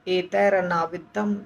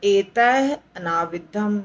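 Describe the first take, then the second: First: The words are joined by an r sound. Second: The first word ends in a breathy h sound. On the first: "एतैः नहीं बोल करके एतैरनाविद्धम बोल सकते हैं" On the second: "नहीं तो एतैः अनाविद्धम भी बोल सकते हैं"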